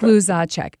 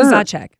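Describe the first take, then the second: First: The name is said at a slower pace. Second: The name is said at a faster pace.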